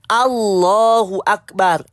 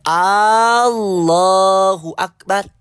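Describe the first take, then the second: First: The opening A vowel is short. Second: The opening A vowel is drawn out long. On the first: It states that God is great. The speaker calls it right. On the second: It asks whether God is great. The speaker calls it wrong.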